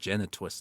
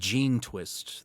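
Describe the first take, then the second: First: It starts like the word genetics, then twist. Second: It starts like the word gene, then twist. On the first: It is read as one word built on genetics. "as in genetics" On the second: It is read as two words, gene and twist. "I would read it as gene twist"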